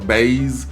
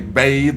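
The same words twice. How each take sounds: First: The word ends with a z sound. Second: The word ends with a th sound. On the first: "or a Z" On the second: "with a T H"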